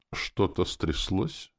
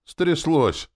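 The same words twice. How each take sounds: First: Slow, drawn-out teasing question; amused, unhurried needling; smirking question. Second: High, loud confirmation; exclaimed with force, pitch way up; heated retort. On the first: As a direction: ask with a lazy smirk, pitch rising. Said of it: "ухмыльнулся Рене". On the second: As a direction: throw the word straight back, loudly. Snaps back at smirking friend. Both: A narrator's reading.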